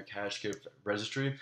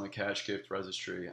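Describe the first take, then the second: First: Said in the usual way. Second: "cash" picked out as the key word; emphasis on CASH. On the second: Real, not acted. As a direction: stress the word "cash" in "cash gift registry". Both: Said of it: "Emphasis on the cash gift registry".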